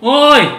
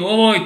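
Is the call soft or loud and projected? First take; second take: loud; soft. First: It is called loudly, projected to someone far. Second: It is called softly, as to someone nearby.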